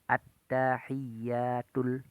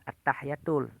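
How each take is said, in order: First: The 'y' sound is held and doubled. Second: The 'y' sound is short and single. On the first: The speaker calls it right. "Tasdid antara ta tasdid, ya tasdid" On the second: The speaker calls it wrong. "jangan at-tahiyatul"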